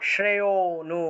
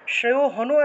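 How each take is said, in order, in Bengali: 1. 'nu'-এর আগের 'o' দীর্ঘ হয়, সেখানে কোনো h নেই। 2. 'nu'-এর আগে একটি h ধ্বনি শোনা যায়। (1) "ওতে গিয়ে একটু টান দিতে হবে" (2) "এটা হনু হবে না"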